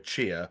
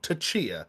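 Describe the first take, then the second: First: The word starts with a ch sound, no T. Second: The word starts with a separate T syllable. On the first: "roll with the silent T" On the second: "go full on Tachia"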